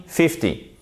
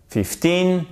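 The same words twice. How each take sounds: First: "fifty" high on FIF, dropping at the end; stress on FIF. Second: Put-on "Fifteen" with TEEN long and raised high; stress on TEEN. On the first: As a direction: stress the first syllable of "fifty". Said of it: "elle est sur la première syllabe". (accent sur la première syllabe de « fifty ») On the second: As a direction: push up the second syllable of "Fifteen". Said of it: "sur la seconde syllabe". (accent haut sur la seconde syllabe de « Fifteen ») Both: Shown as a demonstration.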